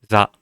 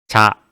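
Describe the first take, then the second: First: Relaxed lips, and the consonant buzzes. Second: Tense lips, and the consonant does not buzz. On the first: The speaker calls it right. "입술에 힘 푸시고" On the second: The speaker calls it wrong. "입술에 힘을 주면은 진동이 일어나지 않아요"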